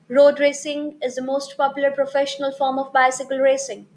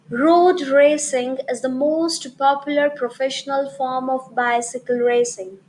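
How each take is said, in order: First: It is spoken fast, with words running together. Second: It is spoken at moderate speed, each word clear. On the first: The speaker calls it wrong. "If I'll be speaking this line a bit faster" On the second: The speaker calls it right. "I followed the moderate pace"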